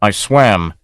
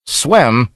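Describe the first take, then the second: First: Said in the usual way. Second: A touch of angry disbelief on Swam; captain echoing the stranger's answer, mildly angry; angry exclamation. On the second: Acted. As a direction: toss Swam back in mild angry disbelief. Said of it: "exclaimed the master angrily".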